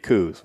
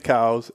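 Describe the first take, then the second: First: The vowel sounds like the one in 'coo'. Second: The vowel sounds like the one in 'cow'. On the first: The speaker calls it wrong. "when someone says it's it's supposed to be Coos, well, that's it's just patently false" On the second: The speaker calls it right. "it's supposed to be Cows"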